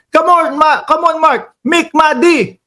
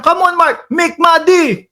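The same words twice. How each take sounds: First: Mock yell, pitched higher; a light jokey impression of a senator shouting; imitating Bato yelling. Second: Mock yell, pitched higher; hammed-up senator scolding him; imitating Bato yelling again. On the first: Mimicking the senator scolding him, mock yell. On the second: Host mimicking the senator yelling at him, mock yell. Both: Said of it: "baka mamaya sigawan ako niyan".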